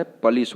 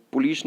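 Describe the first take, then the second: First: पुलिस starting with "puh": puh-LEES; correct pronunciation. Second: पुलिस starting with "pu": pu-lees; wrong pronunciation. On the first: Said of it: "पुलिस होता है". (पुलिस को "पलीस" बोलें) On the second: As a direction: say पुलिस with an oo first vowel. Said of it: "पुलिस नहीं होता है". (पुलिस में "पु" साफ़ बोलें) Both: Shown as a demonstration.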